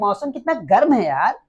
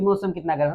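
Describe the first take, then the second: First: It is exclaimed with strong feeling. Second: It is said calmly, without feeling.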